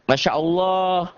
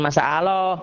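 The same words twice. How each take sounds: First: "Masya Allah" slow and higher, as "masya olloh"; raised, drawn-out thick "Masya Allah"; correct thick Allah. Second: "masa Allah" with plain s and long "aaloh"; wrong Masya Allah. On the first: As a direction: say "Masya Allah" slowly with clear sh and round O. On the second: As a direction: say "masa Allah", stretched A, no thick L. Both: Shown as a demonstration. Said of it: "Jangan masa Allah".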